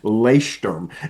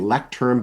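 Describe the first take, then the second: First: It is said with German vowels and sounds. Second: It sounds like the English word lectern. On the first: The speaker calls it right. "it's really pronounced Leuchtturm is how you actually pronounce it" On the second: The speaker calls it wrong. "you say lectern"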